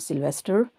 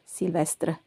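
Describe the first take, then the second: First: It is said with an English pronunciation. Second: It is said with a French pronunciation. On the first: The speaker calls it wrong. "not Sylvester" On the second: The speaker calls it right. "en français, in French, Sylvestre"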